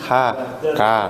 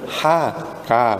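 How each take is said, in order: No difference in how they are said.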